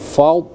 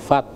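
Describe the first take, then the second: First: The d sound is heavy and thick. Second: The d sound is light and thin. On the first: The speaker calls it right. "Fault dot itu tebal ya, dibaca tebal dia" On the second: The speaker calls it wrong. "bukan fat"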